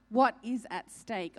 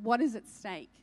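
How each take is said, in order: First: "What is at stake" slowed, each word weighted; slow emphatic repeat. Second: Said in the usual way. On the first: Real, not acted. Preacher urging listeners to ask the Lord, slow and emphatic. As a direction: lean slowly on "What is at stake".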